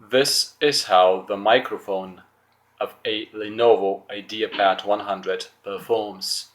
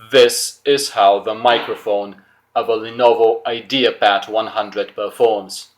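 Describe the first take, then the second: First: It is said at a normal conversational loudness. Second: It is said louder than normal conversation. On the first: "I'm gonna say it with my normal voice" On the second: "Let's raise my voice a bit"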